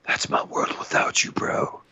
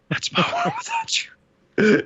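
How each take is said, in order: First: Sappy whisper. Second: High, slow sappy crooning; sappy falsetto. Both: Retold or imitated. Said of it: "he's like".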